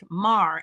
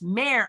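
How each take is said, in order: First: The vowel sounds like the one in car. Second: The vowel sounds like the one in hair. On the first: The speaker calls it wrong. "it was pronounced Mar and drop off the E" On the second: The speaker calls it right. "like like the horse who is the girl"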